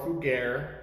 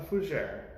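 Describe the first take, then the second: First: The word is said with an anglicized pronunciation. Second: The word is said with a French-style pronunciation. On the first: The speaker calls it wrong. "It's not a fugere" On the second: The speaker calls it right. "It's a fougere"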